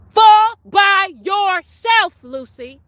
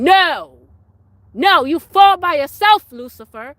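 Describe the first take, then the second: First: Very slow, loud, high rebuke; drawn-out shout. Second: Loud, high rebuke; rebuking shout. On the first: Rebuking Lucifer, slow drawn-out loud shout. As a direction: stretch every word of "Fall by yourself" out at full volume. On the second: Rebuking Lucifer with a loud, high shout. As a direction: cast him down with your voice. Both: Real, not acted.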